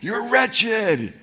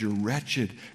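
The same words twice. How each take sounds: First: It is said in a harsh, contemptuous tone. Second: It is said in a gentle, compassionate tone. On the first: The speaker is disgusted with the listener. The speaker calls it wrong. "This isn't Jesus high and lifted up going" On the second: The speaker grieves over the listener's condition. The speaker calls it right. "I think it's that tone, the compassionate"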